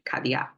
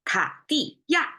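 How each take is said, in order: First: The syllables are said casually and relaxed. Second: Each syllable is said forcefully and distinctly. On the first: It is how people say it in everyday speech. "in our daily language, we'll probably say" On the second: It is said carefully for learners. "I pronounce each one forcefully"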